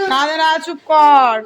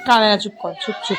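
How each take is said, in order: First: Calm her down gently and slowly; slow soothing shush. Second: Amused, laughing shush; laughing hush. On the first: Hushing a crying little girl. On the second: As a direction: shush her while chuckling. Hushing the girl, amused. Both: Real, not acted.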